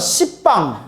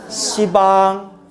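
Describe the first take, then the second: First: A harsh p sound is pronounced before 'bang'. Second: The p sound is dropped, giving soft 'si-bang'. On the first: It sounds too harsh, like a curse. The speaker calls it wrong. "이런 십방 완전 욕 같잖아요" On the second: This is the softened pronunciation. The speaker calls it right. "그래서 뭐라고 발음하는 거다?"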